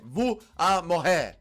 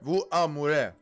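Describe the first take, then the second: First: The R in the last word sounds like H. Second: The R in the last word sounds like R. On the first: The speaker calls it right. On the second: The speaker calls it wrong.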